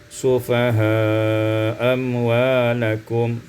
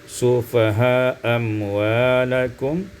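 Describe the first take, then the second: Both takes have the same delivery.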